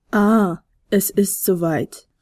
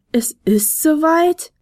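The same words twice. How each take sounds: First: Slow, knowing remark; wissendes Raunen. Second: Slow, higher, amazed question; astonished. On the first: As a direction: say it slowly, as if you knew. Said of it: "raunte der Pegasus wissend". (wissend und langsam geraunt) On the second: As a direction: echo it in wonder, pitch rising. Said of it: "staunte der Flötenspieler". (staunend, langsam nachgefragt) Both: A narrator's reading.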